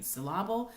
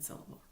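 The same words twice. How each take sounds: First: "syllable" as suh-LAH-bul; "syllable" with the stress moved to the middle; wrong stress. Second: "syllable" as SIL-uh-bul; "syllable" stressed on the first part; correct pronunciation. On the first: Teacher contrasting the two versions, "syllable" wrongly as suh-LAH-bul. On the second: Teacher contrasting the two versions, "syllable" correctly as SIL-uh-bul. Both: Shown as a demonstration. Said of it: "hear the difference between".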